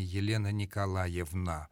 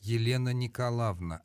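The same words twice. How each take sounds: First: The patronymic is said in full, as spelled. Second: The patronymic is shortened, its middle vowel dropped. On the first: The speaker calls it wrong. "а не" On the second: The speaker calls it right. "следует произносить не буквально следуя написанию, а сокращая"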